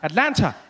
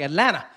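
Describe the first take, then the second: First: Every sound is said, including the t sounds. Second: The t sounds fade and are nearly dropped. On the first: It is how a newcomer says the city's name. "when I got here, every time I said it, I would say Atlanta" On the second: The speaker has started to sound like a local. "The tea was gone. The tea started fading away"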